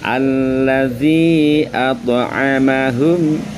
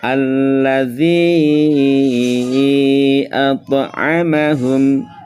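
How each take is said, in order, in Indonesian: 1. Vokal pada 'zi' dibaca singkat. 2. Vokal pada 'zi' dibaca panjang. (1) "Zi-nya hanya satu ayunan saja atau dua harokat saja" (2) "dengan lima harokat"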